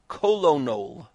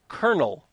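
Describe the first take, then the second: First: It is said in three syllables, like 'ko-lo-nel'. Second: It is said in two syllables, like 'kernel'. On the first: The speaker calls it wrong. "and not kolonol, which is not a word" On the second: The speaker calls it right. "I'm going to pronounce that word kernel"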